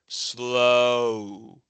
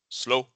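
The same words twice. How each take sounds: First: The vowel glides toward ooh and trails off. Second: The vowel is short and cut off abruptly. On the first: The speaker calls it right. "we say slow. Oh, you can kind of hear it drop off a little bit and trail off gradually" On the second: The speaker calls it wrong. "we don't say slow"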